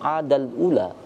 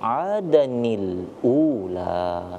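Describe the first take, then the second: First: The words join directly with no linking 'ni'. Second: A linking 'ni' sound joins the two words. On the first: The speaker calls it wrong. "Maka tidak bisa kita langsung adal ula" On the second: The speaker calls it right. "Maka itu kenapa kita bacanya adanil ula"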